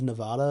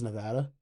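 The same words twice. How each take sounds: First: Nevada said the Spanish way, with an open "ah" in the middle; Spanish pronunciation. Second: Nevada said the English way, with the "a" of "cat"; English pronunciation. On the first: Streamer reading out how Nevada is said, Spanish pronunciation. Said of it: "The Spanish pronunciation is Nevada". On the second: Streamer contrasting it with the Spanish, English pronunciation. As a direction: give Nevada a short English "vad". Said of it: "the English one's Nevada". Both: Shown as a demonstration.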